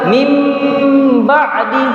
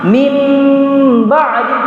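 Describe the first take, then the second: Both takes have the same delivery.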